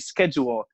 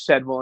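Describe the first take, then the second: First: The word is said the Australian way. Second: The word is said the local northern way. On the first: This is how people down under say it. "apparently they say schedule" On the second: This is how people up here say it. "the appropriate way to say it is schedule"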